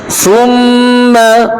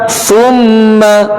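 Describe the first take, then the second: The two takes are said the same way.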